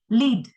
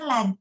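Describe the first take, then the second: First: The vowel is long, like in 'bead'. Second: The vowel is short, like in 'bed'. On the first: It means to guide or be in charge. "Lead itu juga pemimpin kan, leader" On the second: It names a kind of metal. "led itu metal"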